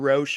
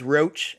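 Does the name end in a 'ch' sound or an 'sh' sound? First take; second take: sh; ch. First: The name ends with a soft 'sh' sound. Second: The name ends with a hard 'ch' sound. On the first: The speaker calls it wrong. "I often get Roche or Roche" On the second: The speaker calls it right. "my last name is Roach"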